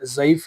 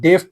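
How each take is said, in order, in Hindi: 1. शब्द की शुरुआत z की आवाज़ से होती है। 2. शब्द की शुरुआत d की आवाज़ से होती है। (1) "लेकिन ज़ईफ़ है" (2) "डेफ पढ़ते हैं हम इसको"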